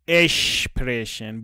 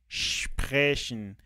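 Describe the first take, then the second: First: A short vowel comes before the sh sound. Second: The word starts directly with the sh sound. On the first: The speaker calls it wrong. "با ا شروع میکنن زبان آموزا. اشتباهه" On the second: The speaker calls it right. "با ش شروع میشه"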